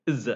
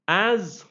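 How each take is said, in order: First: AS reduced to "uhz", written IS; weak form. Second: AS with a full, long "a"; strong form. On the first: Teacher listing word forms, weak form. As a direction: say IS as a short "uhz". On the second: Teacher listing word forms, strong form. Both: Shown as a demonstration. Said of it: "it has a weaker form".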